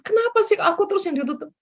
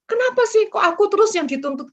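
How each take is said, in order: First: The same complaint, fast and high, with a laugh through it; laughing whine. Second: A high, loud, complaining whine; aggrieved whine. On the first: The preacher repeats the believer's complaint, fast and high, laughing as she says it. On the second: The preacher mimics a believer complaining about always being the one corrected, with a high, loud whine. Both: Retold or imitated. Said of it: "Dan jangan seperti gini".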